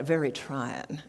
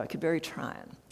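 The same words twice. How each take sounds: First: Said in the usual way. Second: A gentle Southern lady saying very trying; soft Southern accent. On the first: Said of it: "as my late mother-in-law would say". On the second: Retold or imitated. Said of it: "very soft Southern accent".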